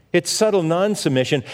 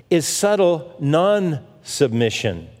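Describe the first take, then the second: First: Said in the usual way. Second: Slow, weighty, leaning hard on "subtle"; stress on subtle. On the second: Shown as a demonstration. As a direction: draw out "subtle" slowly for emphasis.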